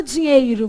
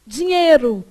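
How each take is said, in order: First: Dinheiro with the i of "ei" sounded; slow dinheiro, clearly "dinhEIro"; full diphthong. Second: Dinheiro said as "dinhêro"; slow dinheiro with "ei" reduced to ê; dropped i. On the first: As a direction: pronounce the i in DINHEIRO. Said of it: "Você não fala dinheiro". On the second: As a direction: drop the first i sound after nh: "dinhêro". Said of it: "você fala dinheiro". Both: Retold or imitated.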